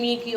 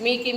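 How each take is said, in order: The two takes are said the same way.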